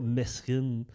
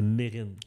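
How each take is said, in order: First: The s in the middle is pronounced. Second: The s in the middle is silent. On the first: The speaker calls it wrong. "c'était pas Mesrine" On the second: The speaker calls it right. "c'est Mérine"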